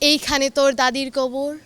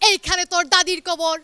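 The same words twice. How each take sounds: First: It is recited in a smooth, polished, expressive style. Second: It is recited forcefully, like a loud rally speech. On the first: A trained performer is reciting. The speaker calls it right. "সে ছিল একজন professional Kabita আবৃত্তিকার" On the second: A local politician is reciting and scares the audience. The speaker calls it wrong. "সে ছিল একজন এলাকার নেতা"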